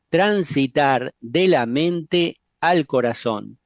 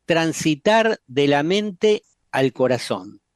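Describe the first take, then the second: No difference in how they are said.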